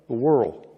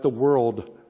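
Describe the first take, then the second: First: The word ends without a D sound. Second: The word ends with a clear D sound. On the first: The speaker calls it wrong. "I pronounce it W O R L" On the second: The speaker calls it right. "not the world"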